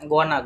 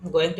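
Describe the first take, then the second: First: The words are merged into one short reduced word. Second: Both words are said fully and separately. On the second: "গোয়িং টু কে কি বলবো?"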